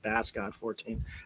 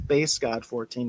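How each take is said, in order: First: Bass is said like the fish, rhyming with mass. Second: Bass is said like the guitar, rhyming with base. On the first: The speaker calls it wrong. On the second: The speaker calls it right. "That's Bass God like a bass guitar"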